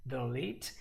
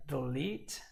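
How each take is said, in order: Both takes have the same delivery.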